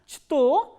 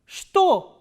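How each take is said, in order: First: The word begins with a 'ch' sound. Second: The word begins with a 'sh' sound. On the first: The speaker calls it wrong. "instead of pronouncing is as chto" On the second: The speaker calls it right. "we are pronouncing is as shto"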